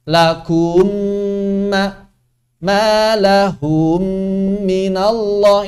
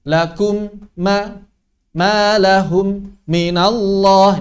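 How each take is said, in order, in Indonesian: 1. Vokal sebelum mim yang ganda dipanjangkan. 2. Ada jeda singkat sebelum mim yang ganda. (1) "isba' harakat. Memanjangkan huruf berharokat sebelum mim" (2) "mengidharkan bacaan. Memberikan jeda"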